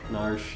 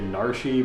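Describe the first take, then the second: First: The name is one syllable without a final vowel. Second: The name ends with an extra 'ee' syllable. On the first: This is how others say it. "I've heard Narsh" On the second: This is how it was said in childhood. "I always pronounce it as kid Narshi"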